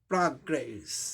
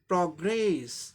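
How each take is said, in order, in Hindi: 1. पहला स्वर खुला 'ah' ध्वनि है। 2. पहला स्वर गोलाकार 'aw' ध्वनि है। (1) "और अमेरिकन में क्या हो जाएगा" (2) "सही उच्चारण ब्रिटिश इंग्लिश में"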